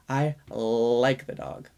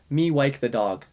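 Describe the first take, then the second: First: "I like the dog" slowed, holding the L in "like"; slow emphasis. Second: Put-on "wike" said with W for L, childlike; child's speech error. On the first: Shown as a demonstration. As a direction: lean on the L of "like" and take it slowly. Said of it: "emphasize it a little more". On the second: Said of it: "another example".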